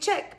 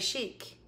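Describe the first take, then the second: First: It starts with 'ch' and has a short vowel. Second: It starts with 'sh' and has a long vowel. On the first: The speaker calls it wrong. "I always want to say chick, but it's not chick" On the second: The speaker calls it right. "It's Shabby Chic. ... Like S-H-E-E-K"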